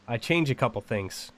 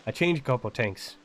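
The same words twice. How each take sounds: First: Said in the usual way. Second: Irish-like accent. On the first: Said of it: "instead of". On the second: Shown as a demonstration. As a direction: say it Irish, with a T in "things". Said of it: "very similar accent to Irish".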